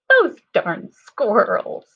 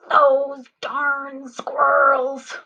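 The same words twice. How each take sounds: First: It is said in a silly voice. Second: It is said in an angry voice.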